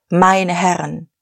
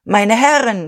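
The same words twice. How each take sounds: First: Said in the usual way. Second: Higher, louder strained call; strained shout. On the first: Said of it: "Dann begann er". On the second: A narrator's reading. Dieterich shouts over the roaring crowd, strained. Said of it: "schrie er angestrengt".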